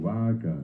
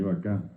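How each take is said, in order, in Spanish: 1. El acento está en la primera sílaba. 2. El acento está en la última sílaba. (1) "O digo vaca" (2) "en guaraní vaca"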